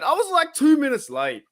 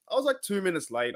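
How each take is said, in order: First: Squeaky high protest, like he's been wronged; incredulous high-pitched protest; mock outrage. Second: Said in the usual way. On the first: Real, not acted. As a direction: pitch way up in playful indignation. Defending being called late.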